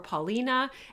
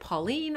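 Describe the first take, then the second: First: The name ends in an 'ah' vowel. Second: The name ends in a consonant sound. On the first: The speaker calls it right. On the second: The speaker calls it wrong.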